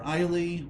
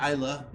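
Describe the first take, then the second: First: The name is said the non-Scottish way. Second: The name is said the Scottish way. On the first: "or Islay" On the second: "Isla is the way the Scottish pronounce it"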